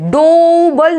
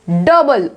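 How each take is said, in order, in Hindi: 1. पहला स्वर 'oh' आवाज़ है। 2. पहला स्वर छोटी 'uh' आवाज़ है। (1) "डोबल नहीं बोलते हैं" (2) "ओ इसमें साइलेंट है"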